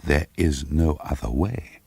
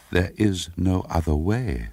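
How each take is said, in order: First: Slow repeat of the inner voice, rising at the end; echoing inner voice. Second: Slow, insistent inner voice with a falling end. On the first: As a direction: repeat it slowly, as if the thought echoes back. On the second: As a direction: let the voice in her head state it slowly and firmly. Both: A narrator's reading. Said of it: "said the voice in her brain".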